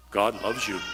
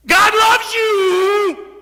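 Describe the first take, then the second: First: Low, bland, dutiful; routine church phrase. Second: Much higher, much louder, slow ecstatic cry; joyful shout. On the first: Retold or imitated. Preacher mimicking the routine churchy line, low and bland. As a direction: say it like a tired church cliché. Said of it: "you hear in church so many times". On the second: Shown as a demonstration. Preacher showing the congregation how it should sound, a huge slow shout. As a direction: shout it out like fire. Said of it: "But no, that's not it".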